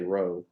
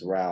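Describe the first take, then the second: First: The name's vowel sounds like 'oh' in 'go'. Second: The name's vowel sounds like 'ow' in 'cow'. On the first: The speaker calls it wrong. "don't say Rowe. It's not Rowe" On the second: The speaker calls it right. "It's Rao"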